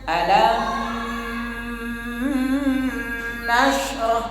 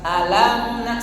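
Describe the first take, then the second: First: The m is held long with a nasal hum. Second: The m lasts one short beat without release. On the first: The speaker calls it wrong. "Nah itu ditahan. Sehingga ada khaysyum" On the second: The speaker calls it right. "satu ketuk"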